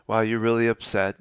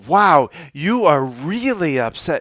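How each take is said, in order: First: It is said calmly, with low energy. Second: It is said with high, matching energy.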